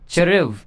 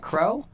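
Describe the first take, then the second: First: It is said as two syllables, like cheruv. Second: It is said as one syllable, like crow. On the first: "or you can pronounce that cheruv" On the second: "you can pronounce that crow"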